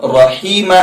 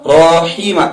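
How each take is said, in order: First: رحیم said as "raheem", open a with zabar; the corrected take of رحیم with a short open a; رحیم with a clear zabar a sound; correct pronunciation. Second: رحیم said as "roheem", first vowel rounded like a pesh; the teacher's wrong take of رحیم with an o sound; رحیم mispronounced with an o-like first vowel; wrong pronunciation. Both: Shown as a demonstration. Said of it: "نہیں،".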